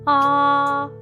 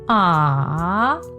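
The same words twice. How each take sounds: First: The pitch stays high and level. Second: The pitch dips low, then rises. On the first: "keep your voice high and flat" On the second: "your voice must go down, then up"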